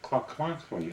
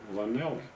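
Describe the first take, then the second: First: The name is said with harsh Welsh-style sounds. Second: The name is said with plain American sounds. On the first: "they pronounce it Clacklackley, about like that" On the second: "We pronounced it Llanelli"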